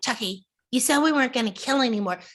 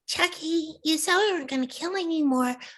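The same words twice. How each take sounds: First: A plainer, less cute, natural human voice. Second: A cute, mischievous, doll-like put-on voice. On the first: The speaker is a human character. "if I was saying it in Tiffany the person" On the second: The speaker is a doll character. "Tiffany the doll talks like this"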